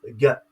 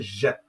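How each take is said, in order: First: It starts with a hard g sound. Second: It starts with a soft j sound. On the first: This is how Hebrew and Greek speakers say the letter. The speaker calls it right. "Ils prononcent cette lettre Ga" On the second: This is how French speakers say the letter. The speaker calls it wrong. "jamais Ja"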